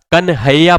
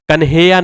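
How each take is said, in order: First: कन्हैया with an open "hai", "kan-hai-ya"; correct pronunciation. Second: कन्हैया with a plain "he", "kan-he-ya"; wrong pronunciation. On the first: Teacher showing how कन्हैया is read, correctly pronounced. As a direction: open the middle vowel of कन्हैया. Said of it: "कन्हैया पढ़ते हैं". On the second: Teacher showing students the faulty कन्हैया, mispronounced as kanheya. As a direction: say कन्हैया with "hey" in the middle. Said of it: "कन्हैया नहीं होता". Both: Shown as a demonstration.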